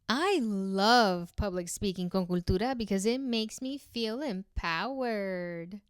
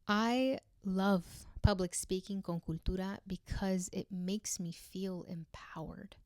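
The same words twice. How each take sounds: First: It sounds sarcastic and fake, not genuine. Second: It sounds warm and loving. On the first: The speaker does not really mean it. "Now let's do sarcastic. ... it sounds fake" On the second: The speaker truly cares about it. "Now I want to say it in a loving way"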